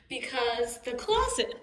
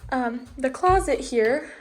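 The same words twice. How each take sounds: First: Hiccuping mid-sentence; words broken by a hiccup. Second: Hiccup cutting into the words. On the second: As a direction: talk through the hiccups. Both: Real, not acted. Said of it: "sorry, I have the hiccups".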